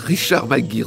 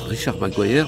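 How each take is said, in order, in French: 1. Le nom se prononce à la française. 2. Le nom se prononce à l'anglaise. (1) "me laisser juste le prononcer à la française" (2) "ça se prononce Richard McGuire"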